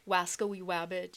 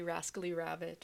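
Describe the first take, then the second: First: Both words begin with a w sound. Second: Both words begin with an r sound. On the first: The speaker calls it wrong. "you don't say wascally wabbit" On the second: The speaker calls it right. "you say rascally rabbit"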